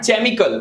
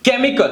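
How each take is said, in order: First: The word begins with a 'ch' sound. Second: The word begins with a 'k' sound. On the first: The speaker calls it wrong. "not chemical" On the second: The speaker calls it right. "it's just k"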